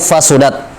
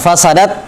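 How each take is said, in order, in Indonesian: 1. Vokal setelah S adalah 'u'. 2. Vokal setelah S adalah 'a'. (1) "bisa di, di apa di dhammah" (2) "bisa di fathah"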